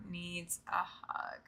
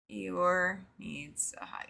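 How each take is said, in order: First: Slow, breathy whisper just for Eeyore. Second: Said in the usual way. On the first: Pretend. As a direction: lean in and whisper it slowly, like a secret. Tender aside about Eeyore.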